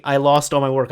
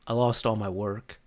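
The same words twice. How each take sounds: First: Louder, distressed retelling; exasperated coworker. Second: Soft, deflated imitation; upset coworker. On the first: Retold or imitated. Coworker explaining lost work, louder and upset. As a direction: blurt out the loss. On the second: Coworker admitting lost work, quietly upset. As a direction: confess the loss quietly. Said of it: "She looks upset".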